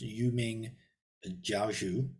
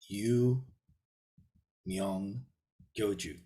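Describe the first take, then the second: First: The title is read with a Mandarin pronunciation. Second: The title is read with a Sino-Korean pronunciation. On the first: "in the Mandarin uh, uh, pronunciation" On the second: "in the Sino-Korean"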